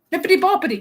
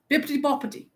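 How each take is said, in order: First: BOPPITY pitched up like a question; "Bippity boppity" with a question mark. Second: "Bippity boppity" as a firm statement, no question; "Bippity boppity" stated surely, falling at the end; with gusto. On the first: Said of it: "say it with a question mark". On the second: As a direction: say "Bippity boppity" decisively, without hesitation. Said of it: "Gus-, gusto. You have to say it". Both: Shown as a demonstration.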